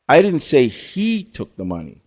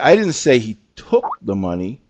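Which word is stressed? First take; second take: he; took. First: The emphasis falls on the word he. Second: The emphasis falls on the word took. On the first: "we had two people pick the word he"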